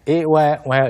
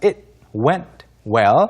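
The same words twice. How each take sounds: First: The T sounds are dropped entirely. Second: The T sounds are lightly pronounced. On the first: The speaker calls it wrong. "아예 안 해버리면 좀 안 돼요. It went well 이렇게 하면 안 되고요" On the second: The speaker calls it right. "뒤에 T 발음들이 조금 잘 살려야 됩니다"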